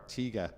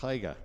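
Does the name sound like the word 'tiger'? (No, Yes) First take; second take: No; Yes. First: The name does not sound like 'tiger'. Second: The name sounds like the word 'tiger'. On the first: The speaker calls it wrong. "I was calling the older car a Tiga" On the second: The speaker calls it right. "apparently it's a Taiga ... Like Tony the Tiger"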